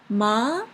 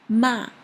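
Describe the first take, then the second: First: The pitch rises like a question. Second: The pitch falls sharply like a strong no. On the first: "The second one is like a question. What? The rising question" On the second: "The last one is a very strong no sound"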